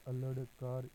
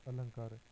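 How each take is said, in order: First: अल्लड कार with a hard ḍ closing the first part; spelled-out nasal form. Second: Said in the usual way. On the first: Shown as a demonstration. Teacher showing the sandhi of alam plus kaar, spelled-out अल्लड कार. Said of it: "पूर्व वाले व्यंजन के ऊपर अनुस्वार". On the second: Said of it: "अनुस्वार लगाकर लिखा".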